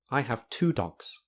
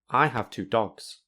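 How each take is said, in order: First: The word two carries the main stress. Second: The word dogs carries the main stress. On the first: The speaker calls it right. "we say the conversation like this" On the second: The speaker calls it wrong. "We don't say it like this"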